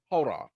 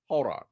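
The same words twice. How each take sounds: The two takes are said the same way.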